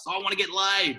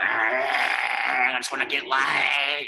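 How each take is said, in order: First: Higher mocking lad voice; mock bloke. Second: Drawn out very slow, lazy lad imitation; mock young bloke. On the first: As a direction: squeak it out like a clueless guy. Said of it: "these guys who are like". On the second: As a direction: stretch it out like a dim, horny guy. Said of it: "they're like".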